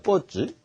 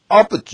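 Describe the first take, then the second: First: The stress is on the second syllable. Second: The stress is on the first syllable. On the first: "뽀에 액센트가 있으면" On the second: "아이 액센트가 했다니"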